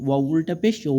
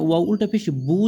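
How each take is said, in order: First: Long rounded "উ" with a light w; light w glide. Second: "বু" with a full b; hard b sound. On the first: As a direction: round the lips, drawing out "উ" without a hard b. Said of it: "হালকা বার মতো উচ্চারণ আসে". (হালকা বা-এর আভাসে গোল, টানা "উ") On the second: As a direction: close the lips into a plain b on "বু". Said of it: "সরাসরি যেন বা না হয়ে যায়". (সরাসরি বা-এর মতো "বু") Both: Shown as a demonstration.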